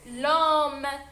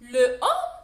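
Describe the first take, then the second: First: The article's vowel is dropped and joined to homme. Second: The article's vowel is kept before homme. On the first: The speaker calls it right. "نقراها ديريكت l'homme" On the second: The speaker calls it wrong. "Non, le homme, je ne veux pas prononcer ce mot"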